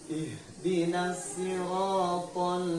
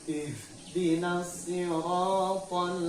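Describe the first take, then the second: Both takes have the same delivery.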